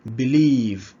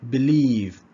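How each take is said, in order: Both takes have the same delivery.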